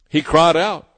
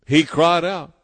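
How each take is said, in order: Both takes have the same delivery.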